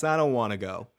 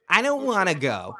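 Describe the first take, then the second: First: Said in the usual way. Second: Wise-ass whine. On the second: Retold or imitated. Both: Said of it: "He says it like a wise ass".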